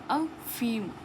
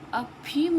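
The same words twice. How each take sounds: First: The middle consonant is an f sound. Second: The middle consonant is an aspirated p. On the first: The speaker calls it right. "ये जो फ़ा है ये आगत व्यंजन वाला फ़ा है" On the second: The speaker calls it wrong. "अफ़ीम नहीं बोलते"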